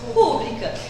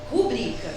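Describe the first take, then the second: First: The stress is on the first syllable. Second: The stress is on the second syllable. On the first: The speaker calls it wrong. "Só que a maioria das pessoas falam pública" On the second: The speaker calls it right. "A forma correta de pronunciar essa palavra, de acordo com a norma padrão, é rubrica"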